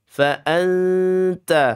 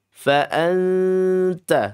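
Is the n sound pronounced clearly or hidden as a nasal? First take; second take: hidden; hidden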